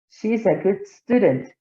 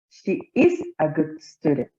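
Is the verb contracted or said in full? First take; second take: contracted; full. First: The pronoun and verb are joined in one syllable. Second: The pronoun and verb are said as separate words. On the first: "pronunciarlo como si estuviera contraído" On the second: "como si fuera eh, no contraída la forma"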